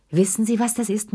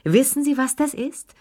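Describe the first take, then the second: First: Lifted, showing-off question; proud announcement. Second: Higher, more excited repeat. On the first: Lilli shows off her young husband to the guests, proudly. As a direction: present him like a prize. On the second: Lilli repeats her boast to the guests, pitched high and giddy. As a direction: push the repeat higher and giddier. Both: A narrator's reading. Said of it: "rief die Anwesenden als Zeugen auf".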